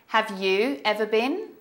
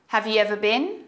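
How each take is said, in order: First: It is said at a slower, careful pace. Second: It is said at a faster, fluent pace.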